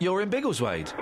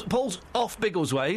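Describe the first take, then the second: First: In Biggleswade landed with a falling finish; triumphantly insisting on in; stress on in. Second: Off drawn out and rising; mockingly stressing off over in. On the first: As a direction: stress the little word in to win the point. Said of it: "which is part of Biggleswade". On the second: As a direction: lean on off, slowly. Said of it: "I'm not in Biggleswade, I'm off Biggleswade". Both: Shown as a demonstration.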